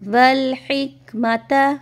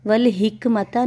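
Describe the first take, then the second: First: The h is a harsh sound from the throat. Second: The h is a light breathy sound. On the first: The speaker calls it right. "हा की आवाज़ होती है हल्क में से" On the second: The speaker calls it wrong. "वल हिकमता नहीं पढ़ेंगे"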